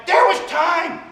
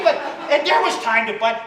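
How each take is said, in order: First: Shouted emphasis. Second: Said in the usual way. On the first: Acted. Insisting to the crowd, a high shouted There was time.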